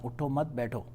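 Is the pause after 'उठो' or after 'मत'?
after मत. The pause comes after 'मत', meaning stay seated.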